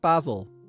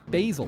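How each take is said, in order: First: It is said with an Irish pronunciation. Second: It is said with an American pronunciation.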